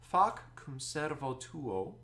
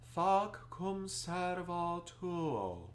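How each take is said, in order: First: The vowels are bright and clearly distinct. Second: The vowels are darkened and rounded. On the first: "all the vowels are very distinct" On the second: "if I talk it like I'm going to sing it"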